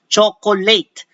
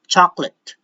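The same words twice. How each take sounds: First: The last syllable has a long 'ay' vowel. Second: The last syllable has a short 'eh' vowel. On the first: The speaker calls it wrong. "Many people would pronounce this rather as chocolate. So it's not eight" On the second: The speaker calls it right. "Not lay, but eh, chocolate"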